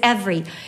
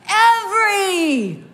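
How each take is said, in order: First: It is said plainly, without much energy. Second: It is said loudly, with enthusiasm.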